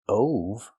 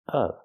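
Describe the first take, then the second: First: The vowel is a long o, like go. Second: The vowel is a short uh, like cup. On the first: The speaker calls it wrong. "Not o like no and go. Not ove" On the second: The speaker calls it right. "with the short uh sound like cup and up"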